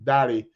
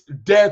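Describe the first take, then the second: First: The name is given a Yoruba pronunciation. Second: The name is given an English pronunciation. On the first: It is read as the Yoruba name. The speaker calls it wrong. "spelled the same way for a Yoruba name as and we pronounce it Dali" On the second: It is read as the English word. The speaker calls it right. "no, it's Dare to Trend"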